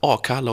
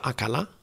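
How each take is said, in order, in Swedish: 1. Det låter som ett svenskt uttal. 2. Det låter som ett utländskt uttal med brytning. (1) "det blev helt rätt" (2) "det finns ju inte en tunnelbaneförare som lyckas uttala ordet Akalla"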